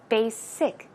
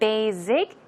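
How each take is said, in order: First: The middle consonant is a hissing s sound. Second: The middle consonant is a buzzing z sound. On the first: The speaker calls it right. "it's basic" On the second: The speaker calls it wrong. "It's not basic"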